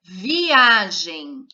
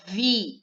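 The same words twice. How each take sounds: First: Said in the usual way. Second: Viagem split into vi, a, gem with pauses; syllable by syllable. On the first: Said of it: "vamos olhar por palavra". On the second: Shown as a demonstration. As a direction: say Viagem in three separate beats. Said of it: "também são três sílabas". (Viagem separando as sílabas)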